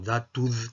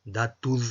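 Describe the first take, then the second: First: It begins with a voiced d sound. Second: The same.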